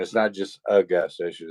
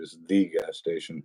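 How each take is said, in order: First: Light stress on "a" in "a gas station". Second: "the" said as "thee" in "the gas station"; single out "the" as the one and only; emphatic "thee" before "gas station"; stress on THE. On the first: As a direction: lean briefly on "a", as one among many. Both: Shown as a demonstration.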